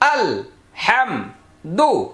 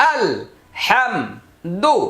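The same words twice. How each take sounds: The two takes are said the same way.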